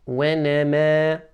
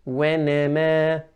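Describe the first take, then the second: The two takes are said the same way.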